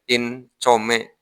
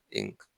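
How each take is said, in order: First: The n is pronounced as a plain n sound. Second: The n is nasalized and hidden before the k. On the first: "Bahasa Inggris hasilnya income" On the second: "nun mati ketemu kaf ya"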